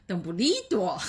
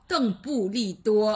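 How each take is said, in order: First: The name is said with an odd, foreign-sounding tune. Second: The name is said with a plain, ordinary tune.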